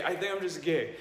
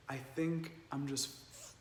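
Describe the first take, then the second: First: Laughing through the words, a bit higher; tearful laugh of release; laughing relief. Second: Soft, halting, stalling before the word "f-"; a hushed, faltering retold confession; hesitant confession. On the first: Retold or imitated. Retold confession with laugh. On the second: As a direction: trail off quietly, unable to finish.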